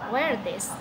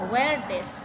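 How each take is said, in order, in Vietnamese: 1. Các từ nối liền nhau, và 'are' gần như mất hẳn. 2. Các từ nối liền nhau, và 'are' gần như mất hẳn.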